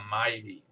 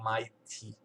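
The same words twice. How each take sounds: First: The T sound is softened or dropped. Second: The T sound is clearly pronounced. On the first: "Às vezes não fala o T, ou quando você está falando rápido" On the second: "e não Mighty"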